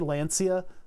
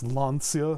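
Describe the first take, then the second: First: The name is said in an anglicized pronunciation. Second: The name is said in its native pronunciation. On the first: "I'm going to say Lancia. That's just my accent" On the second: "I know it's Lancia, or however you guys, you know, pronounce it over there"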